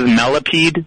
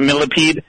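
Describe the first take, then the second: First: It is said with a regional Midwestern pronunciation. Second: It is said with a standard, non-regional pronunciation. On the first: This is how someone from the region says it. "she has a particular way of saying it regional" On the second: This is the usual way to say it. "instead of millipede"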